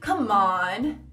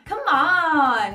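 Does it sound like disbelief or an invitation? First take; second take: disbelief; invitation. First: It is said with an incredulous, exasperated tune. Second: It is said plainly, like a friendly call. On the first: Get real, I don't believe that. "se você quiser falar fala sério, você tem que falar assim, ó" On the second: Come here. "se você falar come on, tipo, vem cá"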